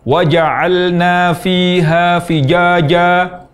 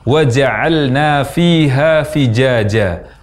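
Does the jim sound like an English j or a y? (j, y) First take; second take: y; j. First: The jim is made too far back, like y. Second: The jim sounds like an English j. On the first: "tempat keluar huruf jim terlalu ke belakang, sehingga terucap menjadi ya" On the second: "terucap seperti mengucapkan huruf J"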